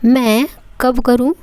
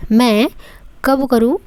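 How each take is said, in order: Both takes have the same delivery.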